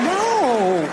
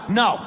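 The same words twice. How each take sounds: First: It is said playfully and teasingly. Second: It is said firmly and seriously.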